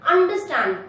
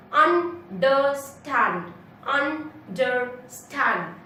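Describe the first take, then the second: First: Said in the usual way. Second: Understand very slowly split, un... der... stand; three separate beats in understand; syllable by syllable. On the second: Shown as a demonstration. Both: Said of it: "three syllables again".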